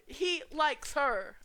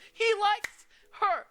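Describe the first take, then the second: First: Loud, high, very slow singsong tease; teasing shout. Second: Very high, loud, drawn-out squeal of glee; gleeful shout. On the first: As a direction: stretch it out slowly to rub it in. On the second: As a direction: shriek it out like you've caught a secret crush. Teasing gleeful shout about crush. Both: Acted.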